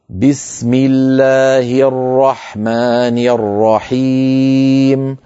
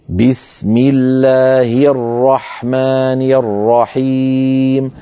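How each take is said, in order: First: The i-vowels are full and clear. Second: The i-vowels are full and clear.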